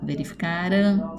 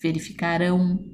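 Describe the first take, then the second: First: The stress is on the second-to-last syllable. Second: The stress is on the last syllable. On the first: Something that already happened. "Aqui vocês vão circular o K" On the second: Something that is going to happen. "E aqui vocês vão circular rão"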